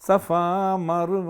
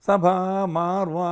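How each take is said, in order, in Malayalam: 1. ആദ്യ വാക്കിൽ 'f' ശബ്ദമുണ്ട്. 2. ആദ്യ വാക്കിൽ 'bh' ശബ്ദമുണ്ട്. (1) "ശരിക്കും സഫ മറുവ മലയുടെ എന്നാ പാടേണ്ടത്" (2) "സഭ മാറുവ എന്നൊക്കെ പാടിക്കളയും"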